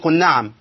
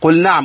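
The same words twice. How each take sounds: First: The lam is merged into the nun. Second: The lam is pronounced clearly before the nun. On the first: The speaker calls it wrong. "قلش قل نعم، إيه قل نعم دي؟ فين اللام؟ اختفت" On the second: The speaker calls it right. "وأظهرن لام فعل"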